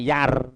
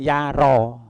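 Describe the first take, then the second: First: The vowel is held for only one short beat. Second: The vowel is lengthened to a normal two beats. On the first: The speaker calls it wrong. "kalau satu harokat yar" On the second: The speaker calls it right. "ini ada alif di sini"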